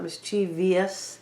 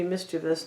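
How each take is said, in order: First: The word is said with four syllables. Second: The word is said with three syllables. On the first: The speaker calls it wrong. "not mischievous. Because there's no V I O U S" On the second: The speaker calls it right. "it has to be mischievous"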